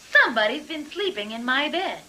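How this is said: It is said in a middle-sized voice.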